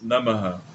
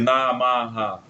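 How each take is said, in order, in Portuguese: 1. As vogais 'a' são pronunciadas curtas. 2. As vogais 'a' são pronunciadas longas, alongadas. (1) "pronunciarmos os As como breves" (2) "Não fazer Namaha"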